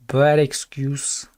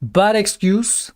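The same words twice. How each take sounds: First: Slow, flat put-on dismissal in an odd voice; mock dismissive voice. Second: Slow, drawn-out rising scoff. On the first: Streamer repeats the excuse in a mock dismissive voice. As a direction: drop into a mock voice and dismiss it slowly. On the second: Pretend. Streamer scoffing at the excuse, slow and rising. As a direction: sneer it slowly with a rise at the end.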